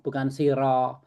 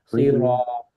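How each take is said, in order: First: The ro sound is light and thin. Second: The ro sound is heavy and thick. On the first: The speaker calls it wrong. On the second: The speaker calls it right.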